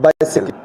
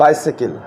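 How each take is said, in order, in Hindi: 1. यह ब्रिटिश उच्चारण में कहा गया है। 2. यह ब्रिटिश उच्चारण में कहा गया है।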